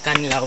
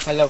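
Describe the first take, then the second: First: An n sound comes before the l. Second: It is said plainly with no added consonant. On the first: This is the proper name of the cave. "lalagyan mo siya ng N, Kanlaw" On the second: It is the name of a bird. "Kalaw po is yung name of a bird"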